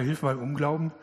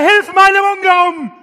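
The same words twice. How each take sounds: First: It is said quietly and casually, without intensity. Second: It is cried out loudly with full intensity. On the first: The plea is half-hearted. The speaker calls it wrong. "Und er hat nicht gesagt, naja" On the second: The plea is desperate and wholehearted. The speaker calls it right. "Da würdest du alles reinlegen und sagen"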